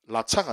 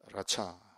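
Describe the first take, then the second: First: The word begins without an R sound. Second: The word begins with an R sound. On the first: The speaker calls it wrong. "라차가 아니고" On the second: The speaker calls it right. "R 발음"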